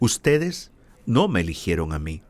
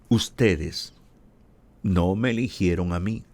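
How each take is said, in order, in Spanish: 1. Se lee a un ritmo normal, más rápido. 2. Se lee más despacio y con calma.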